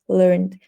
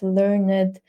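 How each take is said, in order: First: The -ed ending is pronounced lightly, without emphasis. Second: The -ed ending is pronounced with heavy emphasis. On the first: The speaker calls it right. "it should be said" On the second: The speaker calls it wrong. "students say"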